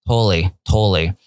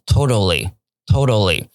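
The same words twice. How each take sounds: First: TOTALLY with the middle t dropped, like "toe-lly"; casual American. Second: TOTALLY with both t sounds clearly said; careful standard. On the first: Teacher showing how Americans say "totally", casual and elided. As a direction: run "totally" into two smooth syllables. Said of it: "美国人在讲的时候". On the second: Teacher showing students the textbook "totally", careful and standard. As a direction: say "totally" slowly and fully, syllable by syllable. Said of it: "你慢慢念会念很标准". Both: Shown as a demonstration.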